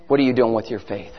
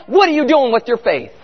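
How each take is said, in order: First: Much lower and softer, searching question; hushed challenge. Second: Said in the usual way. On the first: Real, not acted. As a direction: drop right down to press the question home. Same challenge repeated low and quiet.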